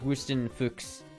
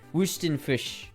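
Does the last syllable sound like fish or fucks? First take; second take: fucks; fish. First: The last syllable sounds like fucks. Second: The last syllable sounds like fish. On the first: "he is more like fucks. So it's more like" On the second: "It's like fish"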